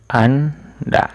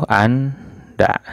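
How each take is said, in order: The two takes are said the same way.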